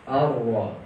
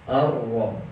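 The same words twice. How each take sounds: The two takes are said the same way.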